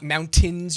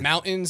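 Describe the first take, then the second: First: The middle T is clearly pronounced. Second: The middle T is dropped. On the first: "You sound like such a dweeb" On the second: "everyone in Colorado drops T's in the middle of words"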